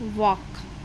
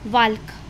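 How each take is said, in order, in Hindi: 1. K से पहले L की ध्वनि साइलेंट होती है। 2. K से पहले L की ध्वनि बोली जाती है। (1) "एल की साउंड क्या हो जाएगी, साइलेंट" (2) "प्रोनाउंसिएशन गलत किया"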